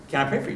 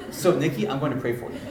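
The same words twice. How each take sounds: First: Said in the usual way. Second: "I'm going to pray for you" as a statement, falling at the end; firm rephrasing. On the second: Retold or imitated. Pastor rephrasing his request to Nikki as a firm announcement. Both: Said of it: "Let me rephrase that".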